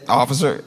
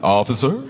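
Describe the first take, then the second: First: It is said as a plain, neutral greeting. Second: It is said as a warm, welcoming greeting.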